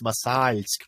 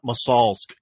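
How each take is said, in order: First: The L is soft, with palatal softening. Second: The L is hard, without palatal softening. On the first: The speaker calls it right. "it's the L with the soft sign after it" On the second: The speaker calls it wrong. "it's not Masalsk"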